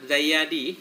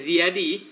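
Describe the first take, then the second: First: The first vowel of the name is a. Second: The first vowel of the name is i. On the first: This follows the written vowel marking. "Zayadi zabitnya" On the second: This is how it is usually read. "Biasa kita baca Syekh Syekh Ziyadi"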